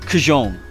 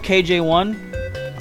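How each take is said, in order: First: The name is said as one blended word. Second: The name is said as two letters and a number. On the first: The speaker calls it wrong. "I could mispronounce, like, you know, Kajone" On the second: The speaker calls it right. "now that I know KJ1"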